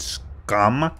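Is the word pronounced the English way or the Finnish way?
English. The word is said with an English pronunciation. "I guess you pronounce it scum"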